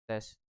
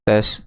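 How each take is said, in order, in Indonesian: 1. Suaranya terdengar lebih pelan dan lembut. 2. Suaranya terdengar lebih keras dan lebih pecah. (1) "Suaranya makin pelan" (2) "lebih kenceng, lebih pecah"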